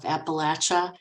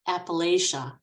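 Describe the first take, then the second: First: It is said the way southern Appalachians say it. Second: It is said the way Northerners say it. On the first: "I have to brag on my pronunciation of Appalachia" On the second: "Us Northerners say Appalachia"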